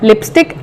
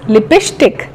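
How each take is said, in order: First: It is said in a standard English accent. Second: It is said in a Bihari English accent.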